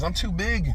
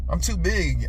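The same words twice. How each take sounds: First: "big" hit hardest in "I'm too big."; "I'm too big." with the weight on "big"; stress on big. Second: "too" hit hardest in "I'm too big."; "I'm too big." with the weight on "too"; stress on too. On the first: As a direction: lean on "big", let "I'm too" stay light. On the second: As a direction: lean on "too", let "big" fall away. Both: Shown as a demonstration.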